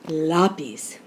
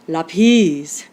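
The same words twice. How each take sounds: First: The stress is on the first syllable. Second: The stress is on the last syllable. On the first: The speaker calls it right. "with the accent on the A" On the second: The speaker calls it wrong. "with the accent on the last syllable"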